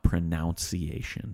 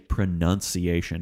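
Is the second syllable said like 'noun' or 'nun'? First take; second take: noun; nun. First: The second syllable sounds like 'noun'. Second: The second syllable sounds like 'nun'. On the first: The speaker calls it wrong. "not pronunciation. There's no O there" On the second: The speaker calls it right. "Do say pronunciation"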